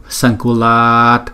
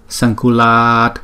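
The two takes are said the same way.

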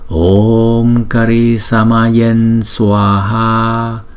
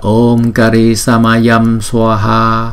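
First: The nasal before Swaha is pronounced as n. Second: The nasal before Swaha is pronounced as m. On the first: "chúng ta sẽ chuyển chữ M có dấu chấm đó thành chữ N" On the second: "cũng được chứ không phải là sai"

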